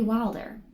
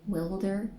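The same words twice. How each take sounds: First: The first vowel is long, as in 'wild'. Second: The first vowel is short, as in 'will'. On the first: The speaker calls it right. "It's got to be Wilder" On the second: The speaker calls it wrong. "Like Wilbur, but with a D"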